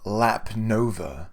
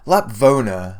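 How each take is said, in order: First: The name is said as 'Lap Nova'. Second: The name is said as 'Lapvona'. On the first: The speaker calls it wrong. "I've been calling it Lap Nova" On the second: The speaker calls it right. "the moment that they start they say"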